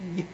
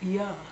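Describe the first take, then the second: First: The y sound is bare and very short. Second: The y sound is followed by an added vowel. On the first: The speaker calls it right. "It's y. Very short" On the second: The speaker calls it wrong. "it's not ya"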